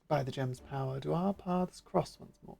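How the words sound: It is spoken in a refined, posh voice. The speaker calls it wrong. "my brain went, yes, posh individual"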